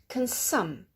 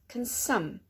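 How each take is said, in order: The two takes are said the same way.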